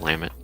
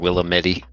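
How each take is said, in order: First: It is pronounced the way locals say it. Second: It is pronounced the way outsiders say it. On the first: The speaker is familiar with the area. The speaker calls it right. "instead of Willamette" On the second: The speaker has never been around the area. The speaker calls it wrong. "when they say Oregon or Willamette"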